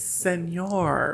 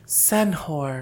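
First: The word is said with a ny sound. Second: The word is read with an h sound. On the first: It is the correct way to say the word. The speaker calls it right. "but it's Senor" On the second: It is a misreading of the word. The speaker calls it wrong. "and then the leopard said"

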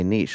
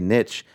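First: The word has the British pronunciation. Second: The word has the American pronunciation. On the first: "if you want to be British, say niche" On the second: "if you want to be true American, just say niche"

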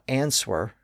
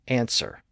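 First: A W sound is pronounced before the second syllable. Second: No W sound is pronounced before the second syllable. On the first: The speaker calls it wrong. "It's not answer" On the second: The speaker calls it right. "we don't pronounce the W"

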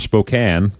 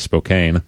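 First: It is said the local Spokane way. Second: It is said the way Missourians say it.

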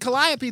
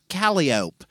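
First: The name is given the standard, non-local pronunciation. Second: The name is given the local New Orleans pronunciation. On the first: The speaker is an outsider to the city. "if you pronounce it Calliope, they will not know what you're talking about" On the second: The speaker is a local resident. "Calliope Street is pronounced Calliope"

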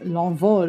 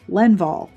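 First: It is said with a French pronunciation. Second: It is said with an American English pronunciation. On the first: The speaker calls it right. "It is L'Envol" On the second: The speaker calls it wrong. "if you're going to just look at it and say it like in American English"

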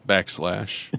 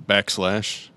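The two takes are said the same way.

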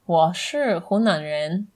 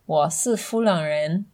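First: It uses standard Mandarin h and n sounds. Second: It uses f and l sounds instead. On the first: "instead of saying something like" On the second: "instead of N, they'll use L ... they might say"

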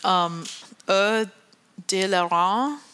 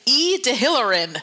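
First: The name is said in a French style. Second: The name is read out letter by letter. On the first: "I'm going to really butcher this" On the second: "It looks like E de Hillerin. That's not how you pronounce it"

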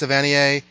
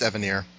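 First: The name is pronounced in a French way. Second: The name is pronounced in an anglicized way. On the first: The name keeps its French origin. "If he sticks to his French roots" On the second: The name drops its French origin. "If he doesn't"

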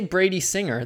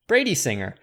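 First: The stress falls on the word Singer. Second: The stress falls on the word Brady. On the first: It is a person's name. "the name, you stress the last name" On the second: It means singers from the Brady family. "But you just heard how I said Brady Singer. It's different"

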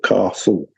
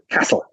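First: It is said in a southern English accent. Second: It is said in a northern English accent.

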